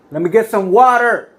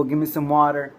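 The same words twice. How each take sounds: First: High, loud call across a crowd; yelling for help. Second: Said in the usual way. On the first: Retold or imitated. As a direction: yell out urgently to bystanders. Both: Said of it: "I yell to the people".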